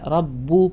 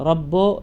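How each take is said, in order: First: The final vowel is a rounded u. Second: The final vowel sounds like an open o. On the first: The speaker calls it right. "ചുണ്ട് നല്ലോണം കൂർത്തിട്ട് തന്നെ വരണം" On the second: The speaker calls it wrong. "റബ്ബോ അല്ല"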